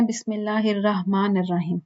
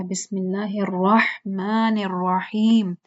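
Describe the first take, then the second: First: Quick, unstretched "بسم اللہ الرحمن الرحیم" with light sounds; common recitation. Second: Slow, drawn-out "الرحمن الرحیم" with full r and long vowels; careful recitation. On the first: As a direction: run "الرحمن الرحیم" together in an everyday accent, vowels short. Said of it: "اس طرح سے پڑھتے ہیں نا". ("بسم اللہ الرحمن الرحیم" عام لہجے میں، بغیر کھینچے) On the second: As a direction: stretch each syllable of "بسم اللہ الرحمن الرحیم". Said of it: "آپ الرحمن بولیں گے". ("الرحمن الرحیم" ٹھہر ٹھہر کر، کھینچ کر) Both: Shown as a demonstration.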